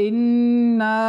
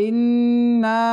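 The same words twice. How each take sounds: The two takes are said the same way.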